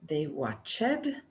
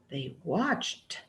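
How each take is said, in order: First: The ending is said as an extra syllable. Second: The ending is said without an extra syllable. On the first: The speaker calls it wrong. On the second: The speaker calls it right.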